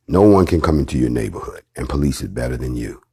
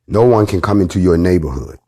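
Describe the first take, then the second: First: "No one" stressed, the repeat said lower and weightier. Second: Said in the usual way. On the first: Shown as a demonstration. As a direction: drive "No one" home in a lower voice.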